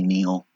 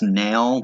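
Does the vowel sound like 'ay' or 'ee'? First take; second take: ee; ay. First: The vowel sounds like 'ee' in 'see'. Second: The vowel sounds like 'ay' in 'day'. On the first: This is how the speaker personally says it. "but I say Neil" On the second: This is the name's official pronunciation. "I think it's pronounced nail"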